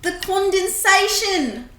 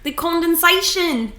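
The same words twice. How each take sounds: First: Put-on higher New Zealand accent. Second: Put-on light New Zealand accent; a hint of a Kiwi accent. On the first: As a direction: say it like a Kiwi. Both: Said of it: "Rate my New Zealand accent".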